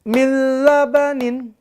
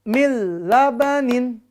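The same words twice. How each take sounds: The two takes are said the same way.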